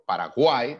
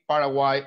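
First: It is said with Spanish pronunciation. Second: It is said with English pronunciation. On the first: "that it could be like the proper pronunciation in Spanish" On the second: "the way that we are stressing some vowels in English is different"

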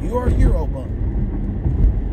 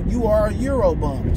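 First: It is said in an imitated put-on voice. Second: It is said in the speaker's natural voice.

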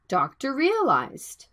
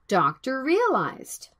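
The two takes are said the same way.

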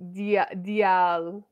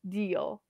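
First: The vowels are split into two syllables. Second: The vowels blend into a single syllable. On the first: The speaker calls it wrong. "you separate a little bit, like dial" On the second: The speaker calls it right. "it should be one syllable"

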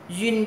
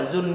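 First: The vowel glides through 'uye' before the final n. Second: The vowel is a plain 'u' before the final n. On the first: The speaker calls it right. "Duyên chứ không phải là dùn nha" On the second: The speaker calls it wrong. "không phải là dùn nha"

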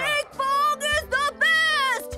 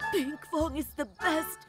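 First: The phrase is shouted loudly. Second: The phrase is said fairly quietly. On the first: The speaker calls it right. "Say it louder!" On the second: The speaker calls it wrong.

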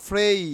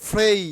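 The two takes are said the same way.

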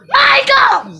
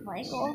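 First: The name is said with excitement. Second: The name is said plainly, without excitement.

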